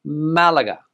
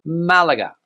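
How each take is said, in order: First: It is said with Spanish pronunciation. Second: The same.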